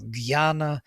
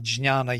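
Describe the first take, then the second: First: The word begins with a g followed by y. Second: The word begins with a j followed by nasal ny. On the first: This is how people in India actually say it. "Gyana, uh, jhana, jyana, whatever, but not jnya" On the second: This is the original form nobody in India uses. "Nobody would say that"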